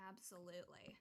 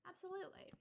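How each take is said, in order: First: Said in the usual way. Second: Absolutely said much higher with rising enthusiasm; repeating Absolutely with delight; emphatic absolutely. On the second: Shown as a demonstration. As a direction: gush over Absolutely like a fan.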